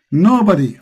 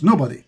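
First: "Nobody" hit harder, with a falling end; emphatic repeat. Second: Said in the usual way. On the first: Real, not acted. Preacher answering his own question to a caller, emphatic. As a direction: land firmly on "Nobody" after a pause.

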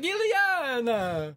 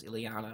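First: Very high, drawn-out cartoon cry; Colossus. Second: Said in the usual way. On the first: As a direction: wail the name out long and high. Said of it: "whenever Colossus was on". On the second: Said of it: "every other word out of his mouth was Illyana".

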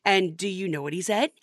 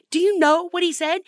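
First: Said in the usual way. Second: Louder, higher insistent repeat; emphatic repeat. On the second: Acted. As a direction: push the question again, louder.

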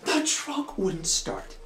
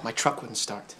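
First: High, drawn-out mocking disbelief; sarcastic echo. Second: Said in the usual way. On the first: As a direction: stretch out THE TRUCK, dripping with suspicion.

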